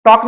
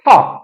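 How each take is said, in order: First: टॉक with no breath on the T; dry, hard T in टॉक; unaspirated T. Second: टॉक opening on ठ; strong air puff starting टॉक; aspirated T. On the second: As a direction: say टॉक as ठॉक. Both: Shown as a demonstration. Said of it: "टॉक ना बोल करके".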